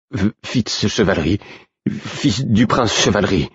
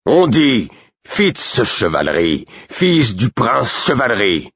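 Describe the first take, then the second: First: Nervous high stumbling repetition; stammering. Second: Slow, high, each word hammered in fury; outraged correction. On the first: Cowed guard repeats the name, stammering. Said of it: "bafouilla l'homme". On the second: Burick corrects the guard, slow outraged insistence. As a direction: spell out the name like a threat. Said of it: "Jamais je n'avais vu Burick aussi outragé". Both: A narrator's reading.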